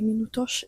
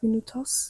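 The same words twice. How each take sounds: First: The word ends with an sh sound. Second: The word ends with a plain s sound. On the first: This is how people in Portugal say it. "they have a lot more sh sounds. Like they say" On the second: This is how it is said elsewhere. "instead of"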